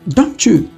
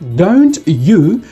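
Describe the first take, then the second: First: The t and y blend into ch. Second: The t and y are said separately.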